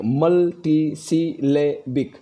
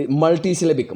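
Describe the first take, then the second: First: मल्टीसिलेबिक said very slowly, each syllable apart; मल्टीसिलेबिक stretched into separate syllables; syllable split. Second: Said in the usual way. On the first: Shown as a demonstration. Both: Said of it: "यहाँ पर कुछ शब्द लिखा है".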